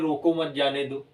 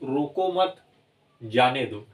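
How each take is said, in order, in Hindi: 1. यह बिना किसी विराम के बोला जाता है। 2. 'mat' के बाद विराम है। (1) "अगर यही न लगा होता तो आप कहते" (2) "अगर यही चिन्ह यहाँ लग जाता है"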